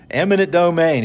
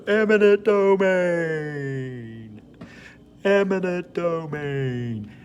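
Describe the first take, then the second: First: Said in the usual way. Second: High, very slow, drawn-out sing-song; Seinfeld "the voice". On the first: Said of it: "and I go". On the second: Shown as a demonstration. Teacher saying the vocabulary word in the goofy voice. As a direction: stretch "Eminent domain" out in a goofy high voice. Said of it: "that voice that Jerry Seinfeld used to do".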